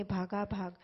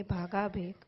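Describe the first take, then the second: First: ભાગાભાગ said bhaga-bhag, both halves with a and final g; ભાગાભાગ clearly as bhaga-bhag; corrected word. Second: ભાગાભેગ said as bhaga-bheg, second half bheg without final g; ભાગાભેગ read wrongly as bhaga-bhe; slipped word. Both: Real, not acted.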